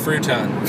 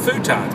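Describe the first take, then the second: First: An r sound follows the first consonant. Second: No r sound follows the first consonant. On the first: Someone else says it this way. The speaker calls it wrong. "Charlie mispronouncing words" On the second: This is the usual way people say it. The speaker calls it right. "futon is what we normally say"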